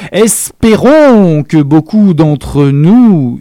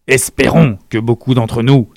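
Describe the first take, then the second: First: Louder, slow, pointed proclamation; grand, slow Espérons, higher and louder; theatrical. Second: Said in the usual way. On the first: A narrator's reading. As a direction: drag out Espérons with a loaded glance. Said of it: "leva de façon théâtrale". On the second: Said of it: "il jeta un rapide coup d'œil".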